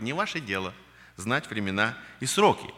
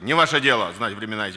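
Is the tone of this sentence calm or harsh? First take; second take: calm; harsh. First: The tone is calm, warm and serious. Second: The tone is sharp and reproachful.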